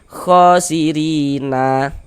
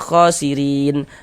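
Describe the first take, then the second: First: The word ends with an added a vowel. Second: The word ends on a stopped final n. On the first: The speaker calls it wrong. "Jangan dibaca khosirina" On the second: The speaker calls it right. "Kita baca khosirin"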